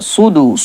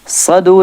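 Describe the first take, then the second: First: The first vowel sounds like 'u'. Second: The first vowel sounds like 'a'. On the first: The speaker calls it right. "पेश है" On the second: The speaker calls it wrong. "सदु नहीं है"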